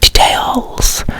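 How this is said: It is said in an exaggerated, odd British way. The speaker calls it wrong. "he would be like details. No one speaks like that"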